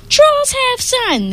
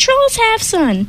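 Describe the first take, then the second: First: High, slow chanting trolls; thundering trolls. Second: High, slow troll chant; thundering trolls. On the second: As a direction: repeat it like stubborn trolls. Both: Acted. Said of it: "the trolls thundered".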